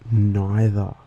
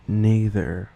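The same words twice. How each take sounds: First: Neither as Australian "nye-thah"; Australian schwa ending. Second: Neither as British "nee-thuh"; British "er" on the end of neither, "nee" first; British accent. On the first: Listing Australian schwa examples, open "ah" ending. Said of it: "like in the Australian accent". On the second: Contrasting Australian with British accent, "er" ending. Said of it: "In a common British accent". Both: Shown as a demonstration.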